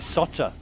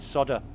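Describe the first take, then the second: First: The middle consonant is a T sound. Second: The middle consonant is a D sound. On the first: "they pronounce the D as a T" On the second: "we dropped the L and we could just call it solder"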